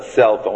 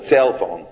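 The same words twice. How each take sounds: First: Said in the usual way. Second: "cell" drawn toward "tsale" in "cell phone"; altered first word. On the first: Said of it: "we have a cell phone". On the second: Shown as a demonstration. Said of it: "we don't have a cell phone".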